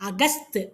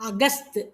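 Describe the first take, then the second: Both takes have the same delivery.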